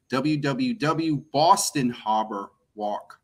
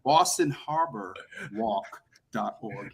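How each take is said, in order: First: Slow, slipping into a Boston accent. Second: "Boston Harbor Walk dot org" said slowly, carefully, Harbor with a clear r; careful pronunciation. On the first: Real, not acted. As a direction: let the Boston accent come out on Harbor. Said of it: "my Boston accent is coming out". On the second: Shown as a demonstration. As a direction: concentrate and say "Boston Harbor" without the Boston accent. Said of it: "You see, I had to concentrate".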